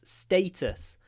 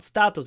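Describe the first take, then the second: First: The first vowel is an 'ay' sound. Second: The first vowel is not an 'ay' sound. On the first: The speaker calls it right. "it's status. Just remember, it's an A" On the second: The speaker calls it wrong. "But it's not status"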